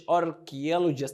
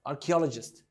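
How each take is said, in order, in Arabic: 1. تُقال ببطء، مع نطق كل مقطع بوضوح. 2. تُقال بسرعة، مع اختصار المقاطع الوسطى. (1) "ما تقولش archaeologist" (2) "لا اخطفها"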